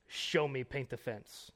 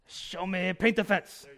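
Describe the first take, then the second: First: Understated attempt at Mr. Miyagi's Japanese accent. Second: Loud, high, hammed-up Japanese accent; Miyagi accent. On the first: Preacher quoting Mr. Miyagi to Daniel-san, in a mild Japanese accent. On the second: Preacher redoing his Miyagi impression for laughs, loud exaggerated Japanese accent. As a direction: belt out a mock Japanese-accented sensei command. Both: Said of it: "that's the best accent I can do".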